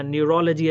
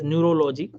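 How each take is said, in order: First: Said in the usual way. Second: "neurology" said as noo-ro-LO-jee; mispronounced "neurology". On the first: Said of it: "This is not how we talk in the U S". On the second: Shown as a demonstration. Coach mimics foreign doctors' mistake, "neurology" as neuro-LO-jee. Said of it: "they, they talk like this".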